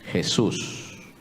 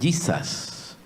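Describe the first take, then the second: First: The name is pronounced the Spanish way. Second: The name is pronounced the English way. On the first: "en español es Jesús" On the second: "en inglés es Jesus"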